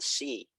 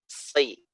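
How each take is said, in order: First: A light s followed by a plain i. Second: A heavy s with a gliding vowel. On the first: The speaker calls it wrong. "bukan si" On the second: The speaker calls it right. "bunyinya itu agak berat"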